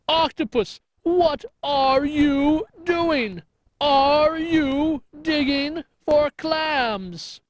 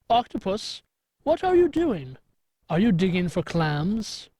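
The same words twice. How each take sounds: First: It is shouted loudly. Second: It is said at normal volume.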